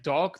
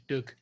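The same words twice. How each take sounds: First: Said in the usual way. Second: "Doug" as the Scots word for dog; Scottish pronunciation. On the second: Shown as a demonstration. Explaining Scottish word changes, "Doug" with Scottish short vowel. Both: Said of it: "they change it to Doug".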